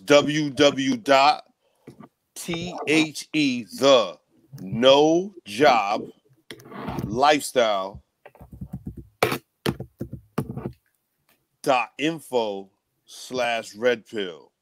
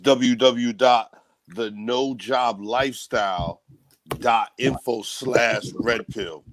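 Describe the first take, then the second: First: It is said very slowly. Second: It is said at normal speed.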